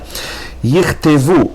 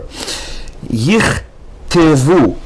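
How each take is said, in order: First: The word is read faster. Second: The word is read slowly.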